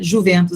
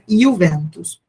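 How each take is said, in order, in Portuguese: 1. É falado com pronúncia do português brasileiro. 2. É falado com pronúncia italiana. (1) "aqui como a gente pronuncia" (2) "mas é Juventus"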